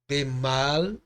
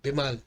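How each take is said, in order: First: The first vowel is long and full. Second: The first vowel is short and reduced. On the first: "nós não lemos ele curto, nós lemos ele longo" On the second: "nós lemos bemal"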